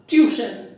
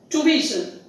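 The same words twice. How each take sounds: First: The stress is on the first syllable. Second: The stress is on the second syllable. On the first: The speaker calls it wrong. "not as tuition" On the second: The speaker calls it right. "The stress is on the second syllable"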